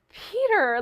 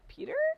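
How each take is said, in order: First: It sounds warm, as if recognizing someone. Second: It sounds puzzled, like an unsure question.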